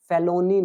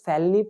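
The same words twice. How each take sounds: First: "felony" said in three full syllables, fe-lo-ny; "felony" with a clear middle o; wrong felony. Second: "felony" said as two beats, fel-nee, middle vowel dropped; "felony" with the middle o swallowed; correct felony. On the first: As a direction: stretch "felony" into fe-lo-ny. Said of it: "felony नहीं पढ़ेंगे". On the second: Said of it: "इसको felony पढ़ेंगे". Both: Shown as a demonstration.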